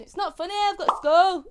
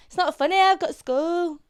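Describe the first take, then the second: First: A broad Yorkshire take on the meme line; Yorkshire accent. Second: Broad Yorkshire meme line. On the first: Shown as a demonstration. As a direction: say it in your thickest Yorkshire. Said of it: "It's the Yorkshire accent". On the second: Retold or imitated. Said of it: "Where it goes".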